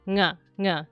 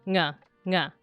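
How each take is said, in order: The two takes are said the same way.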